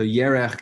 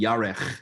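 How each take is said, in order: First: The first vowel is the usual e sound. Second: The first vowel is changed to an a sound. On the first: This is the ordinary form of the word. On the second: The vowel shifts in certain cases.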